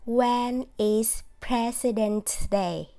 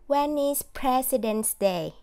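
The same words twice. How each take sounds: First: When and is are said as separate words. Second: When and is are linked into one sound. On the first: The speaker calls it wrong. "Đây là một cách đọc" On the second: The speaker calls it right. "mọi người sẽ nối âm"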